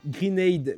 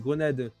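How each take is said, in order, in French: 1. Le mot est prononcé avec un accent anglais. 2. Le mot est prononcé avec un accent français.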